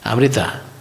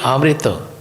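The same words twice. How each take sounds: The two takes are said the same way.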